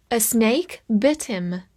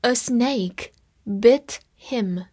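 First: Said in the usual way. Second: Very slow, careful reading; deliberate teacher pace; slow read-along. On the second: Shown as a demonstration. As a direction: stretch each word for learners. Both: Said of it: "我们慢慢来读".

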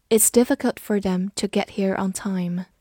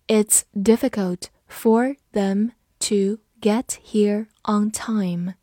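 First: Said in the usual way. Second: Slow, word by word with gaps; slow read-through. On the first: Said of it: "慢读一遍". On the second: Shown as a demonstration. Teacher reading the example sentence for learners, slowly. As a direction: read it slowly, each word set apart. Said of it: "好，慢读一遍".

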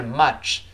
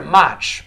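First: "much" with a relaxed "uh", lips not spread; correct relaxed vowel. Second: "much" said wrongly with lips spread, like "match"; wrong spread vowel. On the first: Teacher corrects the mistake, "much" with relaxed "uh". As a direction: say "much" with the mouth falling naturally open to "uh". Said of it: "是much". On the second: Teacher shows what to avoid, "much" with a spread, too open vowel. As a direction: stretch the mouth sideways on the vowel of "much". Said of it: "不要咧嘴". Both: Shown as a demonstration.

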